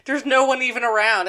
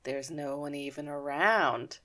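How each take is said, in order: First: Said in the usual way. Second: Low, slow, hushed menace; quiet, drawn-out plotting voice; sinister realization. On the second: Retold or imitated. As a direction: let it dawn darkly, very softly. Retold dawning sinister realization.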